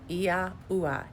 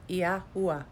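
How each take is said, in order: First: The name is said with three syllables. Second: The same.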